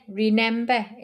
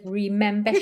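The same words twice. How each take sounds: First: An N sound replaces the M sound. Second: The word is said with its M sound. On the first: This is how a particular acquaintance says it. "She puts an N instead of an M" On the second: This is the usual way to say it. "instead of remember"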